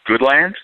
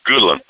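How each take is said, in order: First: Every sound of the name is clearly enunciated. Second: The name is said with reduced, less careful sounds. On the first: The speaker calls it wrong. "which apparently is not pronounced Goodland" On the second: The speaker calls it right. "It's pronounced Goodland"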